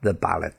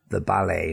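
First: The final T is pronounced. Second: The final T is silent. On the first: The speaker calls it wrong. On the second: The speaker calls it right.

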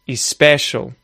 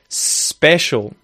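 First: An extra vowel sound comes before the s. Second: The word starts directly with the s sound. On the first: The speaker calls it wrong. "you'll say especial" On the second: The speaker calls it right. "instead of special"

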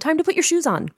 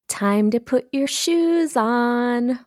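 First: It sounds rushed, anxious and behind. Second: It sounds sweet with an edge of irritation.

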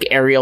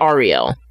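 First: The name sounds like the Little Mermaid's name. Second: The name sounds unlike the Little Mermaid's name. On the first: The speaker calls it wrong. "I'd probably say Ariel like Little Mermaid" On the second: The speaker calls it right. "but it's Ariel"

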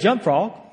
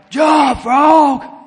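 First: It is said at normal volume. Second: It is shouted very loudly.

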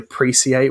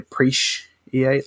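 First: The middle sound is an 's' sound. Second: The middle sound is an 'sh' sound.

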